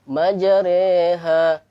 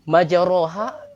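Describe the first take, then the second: First: The vowel after r leans toward e. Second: The vowel after r is an open a. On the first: "membaca metode imalah" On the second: "ro itu ya dibaca ro"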